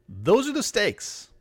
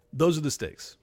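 First: Slow, weighty stress on "the"; emphatic. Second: Said in the usual way. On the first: Shown as a demonstration. Ranting host hammering home the stakes, slow and emphatic. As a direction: lean hard on "the" in "those are the stakes" slowly.

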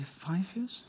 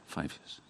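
First: Five years asked with a high rising tune; five years lifted up as a real question, much higher; questioning rise. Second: Five years whispered almost under the breath; Five years breathed as a soft confirming aside; whispered confirmation. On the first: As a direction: ask it, unsure of the number. Checking a fact aloud. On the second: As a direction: settle it quietly to yourself. Confirming quietly to herself. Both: Real, not acted.

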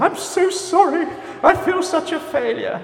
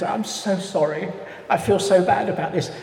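First: Hammed-up apology in a very high put-on voice; over-apologetic person. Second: Lightly voiced apologetic lady, higher pitch; upper-middle-class London lady. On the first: Course attendee confessing failure, hammed-up high-pitched apology. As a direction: squeal the apology in mock despair, far above your own pitch. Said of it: "you get people who are saying". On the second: Lady wringing her hands on the course, mock-apologetic. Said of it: "She was upper middle class".

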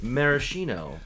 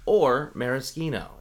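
First: "maraschino" as mara-SHEE-no, slow and clear. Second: "maraschino" as mara-SKEE-no, slow and clear. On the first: Citing the online pronunciation, "maraschino" with an sh. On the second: Citing the other pronunciation, "maraschino" with an sk. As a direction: say "maraschino" with a hard k sound. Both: Shown as a demonstration. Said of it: "If you look online, it says".

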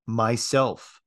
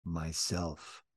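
First: A louder, clearly rung "Myself"; firm, louder voice. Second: Very soft, low "Myself"; barely audible, hushed; soft whisper. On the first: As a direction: say it out clear and gaily. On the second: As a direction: whisper it so it can hardly be heard. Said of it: "whispered so softly you could hardly hear it". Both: A narrator's reading.

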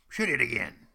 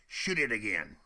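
First: Louder shouted cheer; excited shout. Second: Loud, eager call; a Huron calling out, thrilled; excited demand. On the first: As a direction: yell it like a thrilled warrior. Hurons shouting for more. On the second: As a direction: cheer for another shot. Excited Hurons demanding another shot. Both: Retold or imitated.

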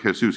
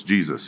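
First: "Jesus" said the Spanish way as hay-SOOS, with an h sound and an oo vowel; "Jesus" as HAY-soos, not JEE-zus; Spanish pronunciation. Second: "Jesus" said the English way as JEE-zus, with a j sound; "Jesus" as JEE-zus, not hay-SOOS; English pronunciation. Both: Retold or imitated. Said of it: "No, it's Jesus".

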